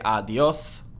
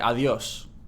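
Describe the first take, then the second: First: The s is pronounced as a th sound. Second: The s is pronounced as an s sound. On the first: The speaker calls it wrong. "you would not say adios" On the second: The speaker calls it right. "you'd say adios"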